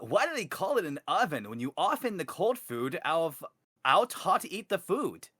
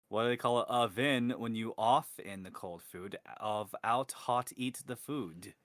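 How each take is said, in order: First: It is read in a Sonic impression voice. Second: It is read in his normal voice.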